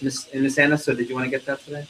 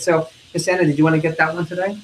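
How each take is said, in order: First: Offputting. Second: Friendly. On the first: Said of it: "What happens when I do that?". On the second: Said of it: "What am I doing?". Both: Shown as a demonstration.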